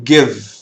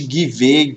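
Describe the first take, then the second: First: The word ends sharply on the consonant. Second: An extra vowel sound ends the word. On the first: The speaker calls it right. "Você para aqui na consoante" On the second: The speaker calls it wrong. "Nada de give, give, não"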